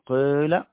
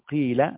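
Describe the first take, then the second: First: The vowel is mixed with a rounded u quality. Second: The vowel is a plain unrounded i sound. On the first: "ياء مشمومة بالضم" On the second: "ياء صريحة"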